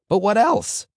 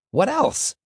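First: Rabbi's prompt leaping up high and loud; voice rising again. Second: Very high squeaked question; high-pitched squeak. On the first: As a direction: shoot the voice up on "what else". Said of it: "His voice rose again". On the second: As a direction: squeak out "what else" at the top of the voice. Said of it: "came out in a high-pitched squeak". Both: A narrator's reading.

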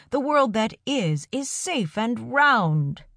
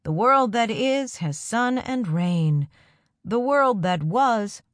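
First: Raised, slow voice with a smile; called out with a smile. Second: Slow, raised, wavering chant; unsteady chant. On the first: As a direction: call it out slowly, smiling. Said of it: "he called out, a smile in his voice". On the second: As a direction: chant it slowly, a little unsure. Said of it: "took up the chant, though a little unsteady-like". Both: A narrator's reading.

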